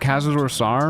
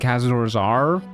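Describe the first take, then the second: First: The second word begins with an S sound. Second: The second word begins with a Z sound. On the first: The speaker calls it right. "I always say Sar. I feel like Sar sounds so much better" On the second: The speaker calls it wrong. "I never say Zar"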